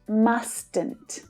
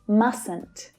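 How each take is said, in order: First: The middle T sound is clearly pronounced. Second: The middle T sound is left out. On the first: The speaker calls it wrong. "Not mustn't" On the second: The speaker calls it right. "the middle T is not pronounced"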